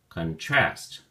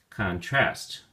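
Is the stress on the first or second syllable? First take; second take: second; second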